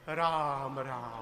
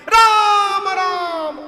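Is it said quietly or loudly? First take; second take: quietly; loudly. First: It is said quietly, at normal volume. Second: It is said very loudly, almost shouted.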